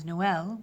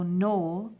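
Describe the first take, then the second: First: "Noël" split into no-EL; French "Noël" in two syllables; added syllable. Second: "Noel" run together as a single syllable; boy's name "Noel" without the vowel break; one syllable. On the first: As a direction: say "Noël" with both vowels sounded. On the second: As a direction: say "Noel" like "nole". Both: Shown as a demonstration. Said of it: "you've added another syllable".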